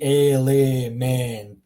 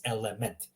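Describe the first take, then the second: First: "element" with every E drawn out long; loud, slow "element" with exaggerated long vowels; wrong long vowels. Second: "element" with short E's, said softly; corrected "element", short E in each syllable, softer; shorter vowels. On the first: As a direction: show a mistaken "element" by lengthening all the E's. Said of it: "would be an example if all of them were". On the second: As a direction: say "element" with all three vowels kept short. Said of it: "So shorter vowels". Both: Shown as a demonstration.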